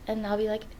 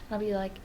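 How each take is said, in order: Both takes have the same delivery.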